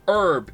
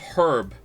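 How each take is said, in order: First: The first H sound is silent. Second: The first H sound is pronounced. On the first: The speaker calls it wrong. "saying herb instead of" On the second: The speaker calls it right. "it has a fucking H in it"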